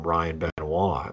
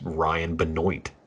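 First: The surname is said with a French-like pronunciation. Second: The surname is said with an anglicized pronunciation. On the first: The speaker calls it wrong. "I really thought I was doing fancy shit by calling him" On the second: The speaker calls it right. "that's full South Carolina"

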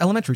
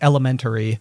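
First: The syllables are run together casually. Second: Every syllable is said clearly and separately. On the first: "I wouldn't say it quite so, I don't know, spelled out" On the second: "I said like every part of the word"

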